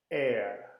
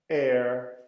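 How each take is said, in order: First: The final R sound is left out. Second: The final R sound is clearly pronounced. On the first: "Os britânicos dizem ... E não pronunciam aquele R no final" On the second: "Eu coloco o R. ... Esta é a pronúncia americana"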